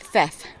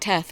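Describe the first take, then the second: First: The name begins with a th sound. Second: The name begins with a plain t sound. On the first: The speaker calls it right. "apparently they pronounce the, the H and the T H" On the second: The speaker calls it wrong. "I keep calling it Teth"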